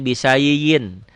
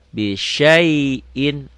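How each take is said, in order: First: The second word begins with an s sound. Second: The second word begins with an sh sound. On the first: The speaker calls it wrong. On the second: The speaker calls it right.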